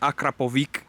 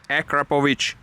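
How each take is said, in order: First: The name is said in an Americanized pronunciation. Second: The name is said in its native-style pronunciation. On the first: The speaker calls it wrong. "Not Akrapovic" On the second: The speaker calls it right. "that's how you pronounce it"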